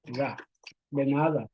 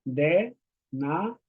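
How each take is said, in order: First: "de nada" drawn out slowly; slow, careful "de nada"; slow demo pronunciation. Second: Said in the usual way. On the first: Shown as a demonstration. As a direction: model "de nada" slowly for learners. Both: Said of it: "we say".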